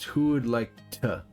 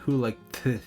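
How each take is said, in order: First: The t is a tongue tap behind the teeth. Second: The t sounds like th, tongue between teeth. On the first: The speaker calls it right. "my tongue taps the roof of my mouth. It doesn't go between my teeth" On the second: The speaker calls it wrong. "Otherwise, it'd be"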